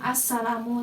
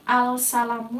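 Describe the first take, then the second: First: The L is silent, blending into a doubled S. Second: The L is pronounced clearly before the S. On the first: The speaker calls it right. "lamnya tidak dibaca. Jadi langsung assalamu seperti ini" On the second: The speaker calls it wrong. "Bukan al-salamu ya"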